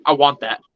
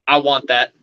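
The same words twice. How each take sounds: First: Low, unhurried claim; a touch of a casual doctor calling dibs; lightly voiced laid-back doctor. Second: Low, lazy claim; a hint of a relaxed doctor calling dibs; lightly voiced laid-back doctor. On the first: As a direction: say it lazily like a doctor leaning back. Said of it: "Just like this". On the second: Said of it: "Just like that".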